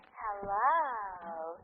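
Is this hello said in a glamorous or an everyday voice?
glamorous. It is said in a put-on glamorous voice. The caller is thought to be a man. "You used your other voice, the glamorous one. You said"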